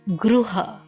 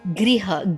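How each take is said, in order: First: The first syllable is said with an 'ru' sound. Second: The first syllable is said with an 'ri' sound. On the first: This is how western India says it. "when you come to the Mumbai part, the Maharashtra and the Gujarat part, okay, it is Ru" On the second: This is how northern India says it. "when you go to the north... the re pronunciation come"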